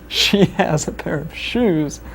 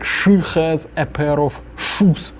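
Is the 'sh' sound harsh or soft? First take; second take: soft; harsh. First: The sh sounds are soft, plain English. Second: The sh sounds are hard, Russian-accented. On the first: "an English phrase" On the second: "a Russian saying ... will be something like"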